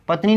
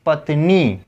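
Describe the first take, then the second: First: पत्नी with a quick short ending; short final i. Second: पत्नी ending on a held "nee"; long final ī. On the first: Teacher showing students the misspelling, short-i पत्नी. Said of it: "पत्नी नहीं". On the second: Teacher correcting it for students, long-ī पत्नी. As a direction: stretch the नी of पत्नी. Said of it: "थोड़ा समय लेकर बोला जाएगा". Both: Shown as a demonstration.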